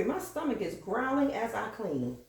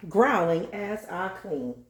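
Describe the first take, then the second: First: Said in the usual way. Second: Slow, deliberate restatement; preacher-style repeat. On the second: Acted. Repeating her own line like a preacher, slow emphasis. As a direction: stretch out GROWLING like a repeated scripture. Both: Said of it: "I have to say it again".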